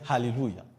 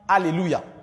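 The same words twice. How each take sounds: First: The opening A is said with a strong breath. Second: The opening A is said plainly, without breath. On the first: The speaker calls it right. "le mot A est aspiré par le prédicateur" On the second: The speaker calls it wrong. "On ne va pas dire Alléluia"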